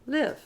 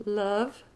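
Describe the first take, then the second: First: "live" with a short i, rising; model vowel. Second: "Love" with an uh vowel; model vowel. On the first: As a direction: contrast "live" with a bright short i. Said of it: "this I is pronounced I". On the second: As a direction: say "Love" with a clear uh. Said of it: "O is pronounced uh". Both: Shown as a demonstration.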